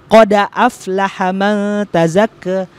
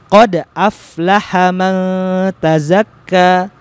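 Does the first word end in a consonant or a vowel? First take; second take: vowel; consonant. First: The first word ends with an added 'a' vowel. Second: The first word ends with a closed 'd' sound. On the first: This follows the Warsh reading tradition. "Dalnya itu tadinya sukun menjadi fathah" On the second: This follows the common Hafs reading tradition. "Kalau riwayat Imam Hafs yang biasa umat Islam membaca pada umumnya"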